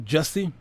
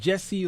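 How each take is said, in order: First: The first vowel sounds like the vowel in 'bus'. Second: The first vowel sounds like the vowel in 'bed'. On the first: This is the form the spelling suggests. "the spelling looks like it's pronounced Jussie" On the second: This is the form people usually say. "we often say Jesse"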